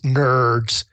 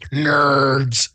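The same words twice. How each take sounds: First: It is said in the speaker's normal voice. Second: It is said in a put-on character voice.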